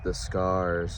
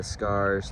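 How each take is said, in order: First: The words are slowly dragged out and elongated. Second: The words are said at a normal pace.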